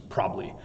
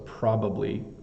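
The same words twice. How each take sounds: First: The word is said quickly with syllables squashed together. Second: The word is said slowly with all three syllables.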